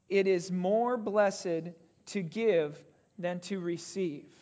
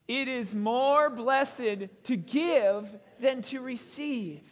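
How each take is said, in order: First: It is said with little energy. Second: It is said with more energy and force.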